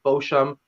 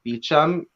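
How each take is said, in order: First: The first syllable sounds like 'bo'. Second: The first syllable sounds like 'bee'. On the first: It is the proper form used with knowledgeable people. "If I'm around people who I know say route, I'm like, oh, like Bosham" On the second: It is the casual form used with ordinary people. "Sometimes I just say like Beecham"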